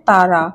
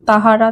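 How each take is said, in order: First: The middle h sound is dropped. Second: The middle h sound is pronounced. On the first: This is the colloquial spoken form. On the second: This is the full written form.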